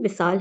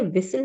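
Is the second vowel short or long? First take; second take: long; short. First: The second vowel is long. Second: The second vowel is short. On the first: It means a meeting of lovers. The speaker calls it right. "विसाल है" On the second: It means a whistle. The speaker calls it wrong. "ये विसल नहीं"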